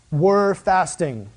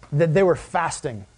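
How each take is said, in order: First: "Were" drawn out slow and firm; "Were fasting" spoken very slowly with weight; stress on were. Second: Said in the usual way. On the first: Shown as a demonstration. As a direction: lean hard on "Were fasting".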